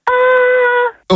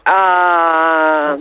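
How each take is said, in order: First: The vowel is at a high pitch. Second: The vowel is at a normal pitch.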